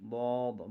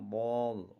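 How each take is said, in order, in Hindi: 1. यह अक्षर भारी बोला जाता है, मुँह भरकर। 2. यह अक्षर भारी बोला जाता है, मुँह भरकर।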